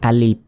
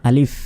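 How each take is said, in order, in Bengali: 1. শব্দটি p ধ্বনি দিয়ে শেষ হয়। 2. শব্দটি f ধ্বনি দিয়ে শেষ হয়। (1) "অনেকে আমরা বলি যে আলিফ, আলিফ নয়, শেষে বাংলার প এর মতো উচ্চারণ করি।" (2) "এই ফর মতো উচ্চারণ হবে। আলিফ আলিফ, কোনো টানা যাবে না"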